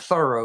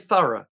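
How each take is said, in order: First: It is said in an American accent. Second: It is said in a British accent.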